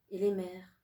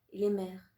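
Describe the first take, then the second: No difference in how they are said.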